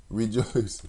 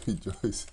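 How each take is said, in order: First: Said in the usual way. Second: The word rejoice broken by a real laugh. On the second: Real, not acted. Reading scripture aloud, cracking up on rejoice. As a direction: laugh right through rejoice.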